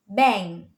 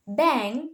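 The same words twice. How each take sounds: First: Bang said as "bang-g"; added hard G. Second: Bang with no G after the nasal; plain NG. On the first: Student teacher showing Indonesian learners' error in bang, added hard G. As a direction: bang with a hard G released at the end. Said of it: "might add an extra sounds like a hard G". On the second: Student teacher giving the English example bang, plain NG. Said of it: "the ng sounds". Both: Shown as a demonstration.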